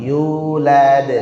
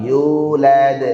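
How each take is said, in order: The two takes are said the same way.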